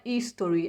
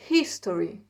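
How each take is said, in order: First: "history" started on the vowel, H dropped; silent H, wrong. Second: "history" opened with an audible breathed H; H sounded, correct. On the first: Teacher showing students the mistake to avoid, H dropped. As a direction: say "history" as istory, without any H. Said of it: "Não é history". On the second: Teacher correcting the dropped H for students, H sounded. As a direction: say "history" lower, with the H aspirated. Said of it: "pronuncia o H com som de R". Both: Shown as a demonstration.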